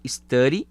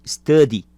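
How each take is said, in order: First: "study" with a tapped r-like flap in the middle, "istari". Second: "study" with a crisp, firm d in the middle, "istadi"; study with clear d. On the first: Teacher showing one way to say "study", with a flap. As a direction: soften the d in "study" into a quick tap. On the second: Teacher showing the other way to say "study", with a clear d. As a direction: hit the d in "study" cleanly. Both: Shown as a demonstration. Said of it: "Eu posso tanto falar study ou".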